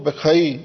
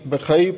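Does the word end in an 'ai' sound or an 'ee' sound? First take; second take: ai; ai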